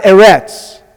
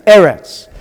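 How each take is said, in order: First: Eretz as eh-RETS, stress wrongly on the second syllable; mispronunciation. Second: Eretz as EH-rets, stress on the first syllable; correct pronunciation. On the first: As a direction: say Eretz with the weight pushed to the end, eh-RETS. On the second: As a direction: say Eretz with the weight up front, EH-rets, then let it fall. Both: Shown as a demonstration. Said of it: "It's not Eretz".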